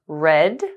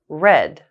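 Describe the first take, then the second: First: The pitch rises at the end. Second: The pitch falls at the end. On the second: "falling intonations"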